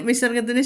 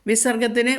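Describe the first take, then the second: Both takes have the same delivery.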